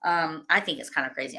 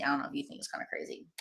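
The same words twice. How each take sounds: First: Said in the usual way. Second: Quick, hushed whisper; whispered aside. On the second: Real, not acted. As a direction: rush it under your breath. Repeats it as an aside.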